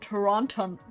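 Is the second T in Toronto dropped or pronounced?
pronounced. The second T is clearly pronounced. The speaker calls it wrong. "I shouldn't pronounce it the non-Canadian way"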